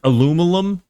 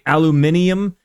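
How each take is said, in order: First: It is pronounced the American way. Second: It is pronounced the British way. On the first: "like the Americans would aluminum" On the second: "how they say aluminium"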